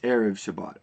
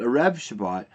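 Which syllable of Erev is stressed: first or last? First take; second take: first; last. First: Erev is stressed on its first syllable. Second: Erev is stressed on its last syllable. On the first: The speaker calls it right. "the accent is actually on the first syllable" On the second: The speaker calls it wrong. "It's not called"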